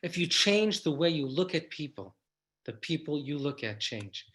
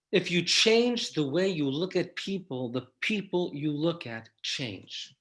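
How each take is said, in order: First: Repeated, falling to a soft close; repeated for emphasis. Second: Said slowly, each phrase weighed; slow emphatic line. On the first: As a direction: say it again so it lands. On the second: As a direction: lay it down slowly so it sinks in. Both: Shown as a demonstration. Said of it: "I'm gonna say that again for emphasis".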